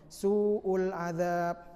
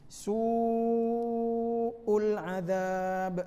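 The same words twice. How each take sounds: First: The long vowel is cut short to two beats. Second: The long vowel is held for several beats. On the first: The speaker calls it wrong. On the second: The speaker calls it right.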